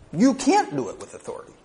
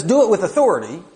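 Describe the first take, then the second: First: Can't hit hard and high, the rest falling away; stress on can't. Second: Loud, fast, high commanding quote. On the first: Real, not acted. Preacher pressing the point home to the congregation, stressing can't. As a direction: lean hard on can't, then let "do it with authority" drop. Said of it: "we have no authority". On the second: Retold or imitated. Preacher quoting Paul's charge, a loud commanding read. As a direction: bark the command like an order from above. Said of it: "He says".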